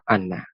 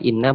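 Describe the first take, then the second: First: The first vowel is an 'a' sound. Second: The first vowel is an 'i' sound. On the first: "boleh dibaca anna" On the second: "bisa dibaca inna"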